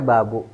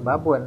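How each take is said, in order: First: "babu" ending on an open u; "babu", last syllable a bare "bu"; without tanwin. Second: "babun" closed with a final n; "babun", last syllable "bun"; with tanwin. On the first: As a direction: say "babu" with the final n left off. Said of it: "Nggak boleh babu". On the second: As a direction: sound the n ending "babun". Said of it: "Harus ba". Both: Shown as a demonstration.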